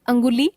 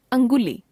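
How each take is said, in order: First: अंगुली with the pitch rising at the end; अंगुली left hanging on a rise; error example, rising. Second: अंगुली with the pitch falling at the end; corrected form, falling. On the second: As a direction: close off अंगुली with a fall. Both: Shown as a demonstration. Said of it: "अनुस्वार और अनुनासिक संबंधी अशुद्धियां".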